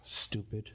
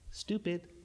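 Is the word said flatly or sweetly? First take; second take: flatly; sweetly. First: The word is said flatly, without warmth. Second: The word is said in a sweet, nice tone. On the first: "You don't yell it" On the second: "You might even say it nicely"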